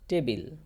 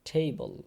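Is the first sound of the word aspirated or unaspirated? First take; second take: unaspirated; aspirated. First: The first t sound has no puff of air. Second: The first t sound has a strong puff of air. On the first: The speaker calls it wrong. "এটা ট দিয়ে টেবিল হবে না" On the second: The speaker calls it right. "মানে ঠ দিয়ে উচ্চারণ হবে"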